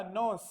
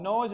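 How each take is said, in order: First: नोज ending in a clean s or z, not j; corrected pronunciation. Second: नोज ending in a buzzy j sound; mispronounced word. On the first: Teacher correcting the pupils, saying नोज clearly as English "nose". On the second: Teacher echoing the pupils' mistake, mispronouncing नोज with a final j. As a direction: say नोज with a j at the end. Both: Shown as a demonstration. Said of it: "नोज नहीं बेटा".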